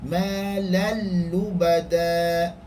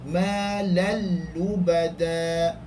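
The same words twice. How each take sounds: No difference in how they are said.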